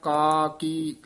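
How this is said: The two syllables are drawn out and separated. The speaker calls it right. "ਲਮਕਾ ਕੇ ਬੋਲਣਾ ਹੈ"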